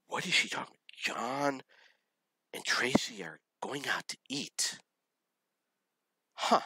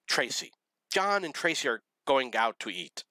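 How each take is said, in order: First: Baffled whisper. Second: Higher-pitched imitation of tearful complaint; mock crying. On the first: Retold or imitated. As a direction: whisper it as a bewildered inner thought. Retold baffled private thought. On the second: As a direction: retell it as a tearful announcement. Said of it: "she's crying and crying".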